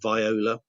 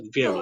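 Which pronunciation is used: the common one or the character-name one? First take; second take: character-name; common. First: It is said the way the character's name sounds. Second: It is said the common way most people say it. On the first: "you do hear some people say uh, viola, uh, as you do with the, with the character" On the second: "most people in this country call the instrument, certainly call it uh, uh, the the viola"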